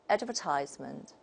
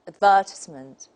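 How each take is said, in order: First: It is said with an American accent. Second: It is said with a British accent. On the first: "according to the American model" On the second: "if we take the British model, we say"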